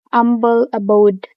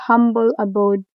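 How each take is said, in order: First: "humble" in "humble abode" said as "umble"; H dropped. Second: Said in the usual way. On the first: Shown as a demonstration. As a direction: start "humble" on the vowel, no H. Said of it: "Dropping the H in humble". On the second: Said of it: "instead of humble abode".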